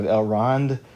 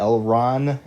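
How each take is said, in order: First: The name ends with a D sound. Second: The name ends with an N sound. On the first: The speaker calls it right. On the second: The speaker calls it wrong.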